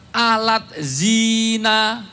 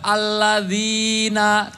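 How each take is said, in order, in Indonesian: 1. Kata itu diucapkan dengan bunyi Indonesia. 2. Kata itu diucapkan dengan bunyi Arab. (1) "bacanya pakai transliterasi bahasa Indonesia" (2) "di dalam Quran ada alladzina"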